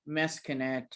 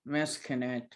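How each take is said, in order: No difference in how they are said.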